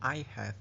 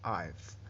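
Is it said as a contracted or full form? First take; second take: full; contracted. First: Both words are said in full. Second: The h and vowel are dropped into one syllable.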